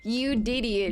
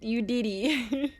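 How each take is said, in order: First: Said in the usual way. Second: Drawn out slowly with a teasing rise at the end; slow teasing drawl. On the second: Acted. Teasing chat for the meme, slow teasing drawl. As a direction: stretch it out, playfully accusing. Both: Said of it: "Don't say I didn't do it".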